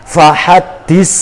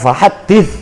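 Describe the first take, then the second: First: The middle consonant is a hissing s sound. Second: The middle consonant is a soft th sound. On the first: The speaker calls it wrong. "Fahaddis itu bukan fasih" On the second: The speaker calls it right. "fahaddis yang betul"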